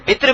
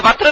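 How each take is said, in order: First: وتر said "witr", with a short i; witr with i-vowel. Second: وتر said "watr", with a short a; watr with a-vowel. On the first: Teacher showing students the other form, وتر as "witr". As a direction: give وتر an i in the first syllable: witr. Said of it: "یہ وتر بھی استعمال ہوتا ہے". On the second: Teacher showing students one accepted form, وتر as "watr". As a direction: give وتر an a in the first syllable: watr. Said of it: "وتر بھی استعمال ہوتا ہے". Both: Shown as a demonstration.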